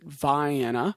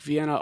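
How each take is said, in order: First: It is said with a different, local pronunciation. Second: It is said the usual way for the European city. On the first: This is how the town's residents say it. "they seem to pronounce it Vienna" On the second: This is the name of the city in Austria. "like Vienna, Austria"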